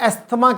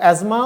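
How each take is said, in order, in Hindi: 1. बीच में 's' है जिसके बाद 'th' आता है। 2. बीच में गूँजती हुई 'z' की आवाज़ है। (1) "हमारे बड़े बड़े डॉक्टर्स जो हैं वो एस्थमा कहते हैं" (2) "अमेरिका में इसको एजमा"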